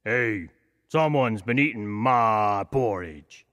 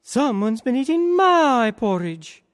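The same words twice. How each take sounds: First: Slow, lightly voiced papa bear; a big bear, puzzled, taking his time; gentle hint of a father bear. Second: Much higher, louder, slower mama bear; an indignant mother bear, shocked; high, put-out mama bear. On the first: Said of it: "he said". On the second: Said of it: "the mama bear ... and said". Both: A narrator's reading.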